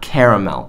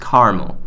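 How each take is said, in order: First: The middle 'a' is pronounced, three syllables. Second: The middle 'a' is dropped, two syllables. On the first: The speaker calls it wrong. "There is an- a second A, but it's not caramel" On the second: The speaker calls it right. "It's caramel"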